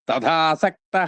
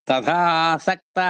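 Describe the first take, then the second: No difference in how they are said.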